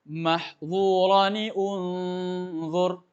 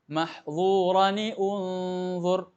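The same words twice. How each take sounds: The two takes are said the same way.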